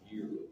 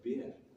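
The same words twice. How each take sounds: First: It is said in a Canadian accent. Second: It is said in a British accent.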